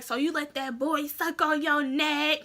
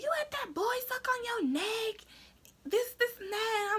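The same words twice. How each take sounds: First: Said in the usual way. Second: Much higher, softer put-on dad; dad's voice. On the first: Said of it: "he's like". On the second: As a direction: mimic dad's stunned question. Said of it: "So he's like".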